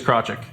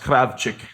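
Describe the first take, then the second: First: The name is said in a simplified English way. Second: The name is said in a Ukrainian way. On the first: This is the easy everyday form. "The easiest way to say it is Krocek" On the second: This is the original proper form. "if you wanted to say it like in its in its proper pronunciation"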